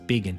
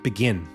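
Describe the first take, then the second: First: The first vowel is a long 'ee' sound. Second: The first vowel is a short 'ih' sound. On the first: This is how the name is actually said. "they pronounce it like vegan. So it's begin" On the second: This is the ordinary word it is compared to. "it's it's like begin"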